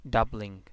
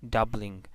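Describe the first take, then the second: No difference in how they are said.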